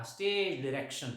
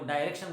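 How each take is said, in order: First: Said in the usual way. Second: डायरेक्शन opening on a long "eye" vowel; alternative pronunciation. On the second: Shown as a demonstration. Teacher quoting how some people say it, डायरेक्शन with "dye". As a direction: say डायरेक्शन with "dye" as first syllable. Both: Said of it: "काही लोक डायरेक्शन उच-, उच्चार करतात पहा".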